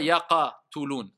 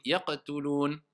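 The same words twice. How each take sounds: First: Yaqatulun with an added a sound between the qaf and the ta; wrong extra vowel. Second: Yaqtulun with a short, dry echo on the qaf and no added vowel; correct light qalqala. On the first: Teacher showing students the mistake to avoid, extra vowel after qaf. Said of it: "On dit pas". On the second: Teacher giving students the right version, short dry qaf. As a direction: keep yaqtulun tight, the qaf just bouncing. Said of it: "n'exagérez pas". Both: Shown as a demonstration.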